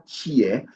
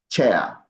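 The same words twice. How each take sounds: First: "cheer" with a long ee vowel; wrong take, cheer. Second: "chair" drawn out slowly, open air vowel; slow down and say "chair" clearly; slow right take. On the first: Teacher sets the wrong vowel against the right one. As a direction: show "cheer" as the mistake. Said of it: "So it's not like". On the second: Teacher models the right word slowly for the class. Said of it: "you say chair". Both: Shown as a demonstration.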